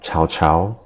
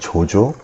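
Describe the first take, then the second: First: The name is said with a Chinese pronunciation. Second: The name is said with a Korean pronunciation.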